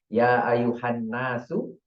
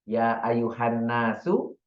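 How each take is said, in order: The two takes are said the same way.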